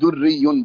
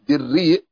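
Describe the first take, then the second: First: First vowel u, ending in a doubled y sound. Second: First vowel i, long vowel ending in a glottal stop. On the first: "بضم الدال وشد الياء" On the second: "بكسر الدال"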